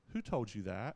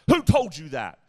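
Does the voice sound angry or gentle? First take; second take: gentle; angry. First: It is said in a gentle, loving tone. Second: It is said in an angry, judging tone.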